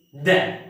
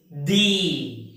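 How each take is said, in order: First: "the" with a short uh, like "duh"; "the" as thuh. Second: "the" slowly, with a long ee like "dee"; "the" as drawn-out thee. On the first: Teacher reads the last transcription, "the" as thuh. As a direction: say "the" with a brief neutral vowel. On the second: Teacher reads out the transcription, "the" as a slow thee. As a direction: stretch "the" out to rhyme with see. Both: Shown as a demonstration. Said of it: "how should we read this phonetic transcription".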